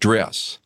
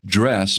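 First: The vowel is raised, as in a Southern drawl. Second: The vowel is the standard, lower dress vowel.

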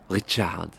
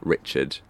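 First: The name is said with a French accent. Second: The name is said with an English accent.

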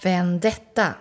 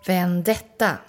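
First: The stress is on the second syllable. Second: The stress is on the second syllable.

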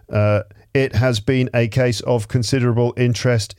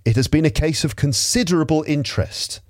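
First: The voice is flat and monotone. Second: The voice is lively and expressive. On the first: The speaker calls it wrong. "try not to sound like a robot" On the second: The speaker calls it right. "Put some life into the reading"

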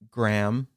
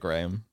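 First: The name is said with an American pronunciation. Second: The name is said with a British pronunciation. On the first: "Americans really say it like that" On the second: "instead of"

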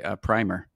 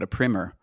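First: The word is given its Canadian pronunciation. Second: The word is given its American pronunciation. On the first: The speaker calls it right. "In Canada, we pronounce it correctly" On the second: The speaker calls it wrong. "in America, you call it a primer"

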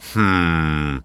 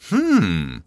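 First: The hmm is low in pitch. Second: The hmm is high in pitch.

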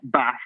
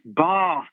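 First: The word is said with a northern English accent. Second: The word is said with a southern English accent. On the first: This is the form being corrected. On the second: This is the form taught as proper speech.

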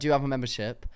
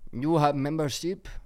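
First: It is said in the speaker's own accent. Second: It is said in an imitated foreign accent.

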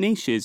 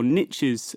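First: The word has a British pronunciation. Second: The word has an American pronunciation.

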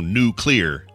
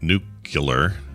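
First: The word sounds like new plus clear. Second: The word sounds like nucular, with an extra syllable. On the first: The speaker calls it right. "So new clear" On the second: The speaker calls it wrong. "My dad used to say nuclear"

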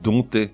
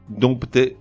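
First: The 'p' in the middle is silent. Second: The 'p' in the middle is pronounced. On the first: The speaker calls it right. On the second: The speaker calls it wrong. "On ne dit pas"

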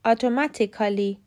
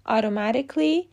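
First: A vowel is said between the k and l. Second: No vowel is said between the k and l. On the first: The speaker calls it wrong. "احتمالاً حد زدین که این واژه ها که همگی قید هستن اشتباه تلفظ شدن" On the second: The speaker calls it right. "باید بگیم ... به همین ترتیب automatically"

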